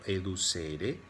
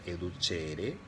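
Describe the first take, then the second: First: It is pronounced plainly, the way it looks written. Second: It is pronounced with an Italian-sounding pronunciation. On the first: "Yo les voy a pronunciar como van a encontrarlo escrito" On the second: "algunos pronuncian educere, que suena como a italiano"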